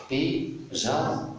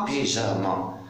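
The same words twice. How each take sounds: First: "Pyja-" in two detached syllables, high; split into syllables. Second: Said in the usual way. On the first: Shown as a demonstration. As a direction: sound out "Pyja-" with a gap between syllables. (« Pyja- » en syllabes bien détachées) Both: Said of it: "je découpe le mot".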